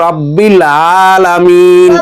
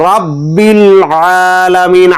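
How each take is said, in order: The two takes are said the same way.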